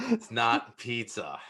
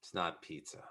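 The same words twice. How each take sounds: First: "It's not pizza" slow and deliberate; emphatic objection. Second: Low, quiet verdict after a pause; understated disgust. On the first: New Yorker insisting on "not pizza", slow emphatic delivery. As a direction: spell out "not pizza" slowly at normal volume. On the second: New Yorker triggered by Chicago pizza, low quiet objection. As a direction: say it low and much softer, as a grudging correction. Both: Pretend.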